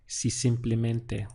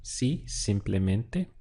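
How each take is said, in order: First: Said in the usual way. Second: Si simplemente spelled out slowly, syllable by syllable; Si simplemente slowly, with a rise on si; slow model phrase. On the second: Shown as a demonstration. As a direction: drag out Si simplemente so students can hear each part. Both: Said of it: "what we'd say is".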